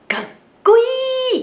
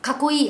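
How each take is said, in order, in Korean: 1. 작은 쯔는 한 박자를 온전히 유지해요. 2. 작은 쯔는 자기 박자 없이 합쳐져요. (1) "이렇게요" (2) "아니죠"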